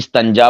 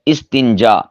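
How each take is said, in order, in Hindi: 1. t के बाद का स्वर a है। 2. t के बाद का स्वर i है।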